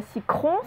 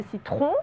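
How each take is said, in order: First: Citron said as sicron, a K in place of the T; wrong pronunciation. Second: Citron said clearly with T and R, si-tron; correct pronunciation. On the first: Teacher warning pupils in dictation: citron said wrong as sicron. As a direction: mispronounce citron as sicron on purpose. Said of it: "attention, ce n'est pas citron". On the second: Teacher correcting pupils in dictation: citron said right, si-tron. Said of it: "c'est citron". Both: Shown as a demonstration.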